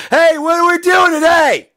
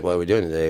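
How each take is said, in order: First: Much higher and louder, like caps lock; "Hey, what are we doing today?" as a much higher, louder shout; all-caps shout. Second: Said in the usual way. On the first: Shown as a demonstration. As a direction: yell it the way caps text reads. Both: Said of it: "I'm in lowercase".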